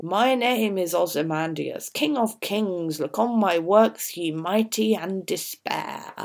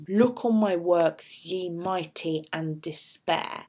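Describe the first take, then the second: First: Lightly voiced proud king; a hint of a boastful king, slowing on "and despair"; Ozymandias's boast. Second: Slow, deliberate command, "Look" stressed; commanding imperative. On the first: Teacher reading the king's boast on his statue, lightly proud. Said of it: "We've got this dialogue in the middle". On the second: Shown as a demonstration. Teacher showing the imperative form to the class, slow and commanding. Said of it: "the imperative form".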